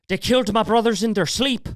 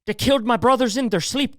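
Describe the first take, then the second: First: Put-on Irish accent take. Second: Put-on Irish accent repeated. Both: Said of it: "Can't do a very good Irish accent".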